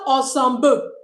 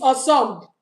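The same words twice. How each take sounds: First: The final 'le' ending is pronounced aloud. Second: The final 'le' ending is not pronounced. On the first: The speaker calls it wrong. "Not ensemble" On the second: The speaker calls it right. "the L E is not pronounced"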